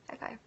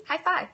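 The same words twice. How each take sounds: First: Soft echo. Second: Cheery high five. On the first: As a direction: say it again almost under your breath. Echoing her own high five. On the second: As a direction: cheer the viewer on. Cheering a viewer who quit smoking. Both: Real, not acted.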